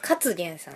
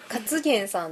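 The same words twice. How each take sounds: First: The accent falls on the first syllable, ka. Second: The accent falls on the second syllable, tsu. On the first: The speaker calls it right. "カにイントネーション。" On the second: The speaker calls it wrong. "つじゃない？"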